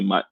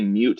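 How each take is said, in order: First: The vowel is short, rhyming with nut. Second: The vowel is long, rhyming with cute. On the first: "a lot of people also say mut" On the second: "I say mute as in like the first part of mutable"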